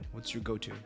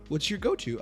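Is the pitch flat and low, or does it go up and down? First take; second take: flat; up and down. First: The pitch stays low and flat throughout. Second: The pitch moves up and down noticeably. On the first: The speaker calls it right. "My tone is flatline. It's low, it's grounded, it's factual" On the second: The speaker calls it wrong. "My tone is not, ... It's not up and down"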